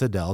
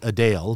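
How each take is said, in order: First: The last syllable sounds like 'dell'. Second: The last syllable sounds like 'Dale'. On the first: This is how most people say the name. "that's what everyone started saying" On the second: This is how the singer herself says her name. "the proper pronunciation is [name]"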